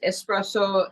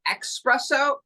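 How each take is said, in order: First: The word begins with an es sound. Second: The word begins with an ex sound. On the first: This is the Italian and French pronunciation. "it's espresso in Italian and French" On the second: This is the Portuguese pronunciation. "The only language where it's espresso, ex, believe it or not, is Portuguese"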